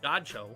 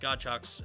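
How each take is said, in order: First: The name ends with an 'oh' sound. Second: The name ends with a 'ks' sound. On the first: The speaker calls it right. "I think it's Godcho" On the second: The speaker calls it wrong. "I don't think it's Godchucks"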